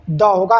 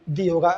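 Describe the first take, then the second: First: द with a short neutral vowel; THE as "duh". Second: दी with a long ee vowel; THE as "dee". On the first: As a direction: say द as "duh", not "dee". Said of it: "इसका pronunciation द होगा". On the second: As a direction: say दी to rhyme with see. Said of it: "ना कि दी होगा". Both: Shown as a demonstration.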